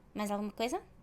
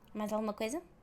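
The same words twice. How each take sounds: First: It is fast, with the words run together. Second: It is fast, with the words run together.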